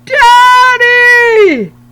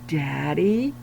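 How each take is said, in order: First: It is yelled as loud as possible. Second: It is said a little louder.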